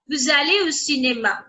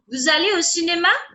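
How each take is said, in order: First: It is a plain statement, falling at the end. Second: It is a question, rising at the end.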